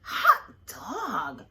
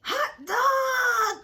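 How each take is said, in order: First: Louder cheer but not high; happy cry. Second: Put-on high, loud shouted cheer of kids; a class cheering at the top of their lungs; joyful cry. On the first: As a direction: cheer at the teacher's return. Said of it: "cried the kids". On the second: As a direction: yell it out in delight. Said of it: "cried the class". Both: A narrator's reading.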